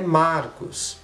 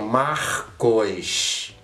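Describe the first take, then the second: First: The name is said with plain R and S. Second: The R changes and an I sound precedes S. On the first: "O meu nome é Marcos" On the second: "eles mudam a entonação do, da letra R e eles colocam uma letra I entre o O e o S"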